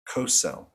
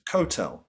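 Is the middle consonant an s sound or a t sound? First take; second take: s sound; t sound. First: The middle consonant is an s sound. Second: The middle consonant is a t sound.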